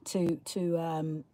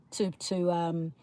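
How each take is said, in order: Both takes have the same delivery.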